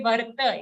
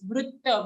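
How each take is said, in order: First: Varta with a plain va and ra; wrong varta. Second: Vritta with ru and double ta. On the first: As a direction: say varta, not the ru sound. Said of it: "don't say varta". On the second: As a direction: join va to a ru in vritta. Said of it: "it's vritta". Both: Shown as a demonstration.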